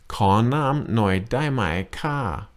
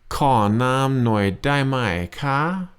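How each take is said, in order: Both takes have the same delivery.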